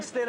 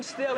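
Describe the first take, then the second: First: "still" mimicked deep and low; mock low voice. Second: "still" mimicked high and squeaky; mock high voice. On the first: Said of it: "in a low voice". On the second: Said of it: "in a high voice".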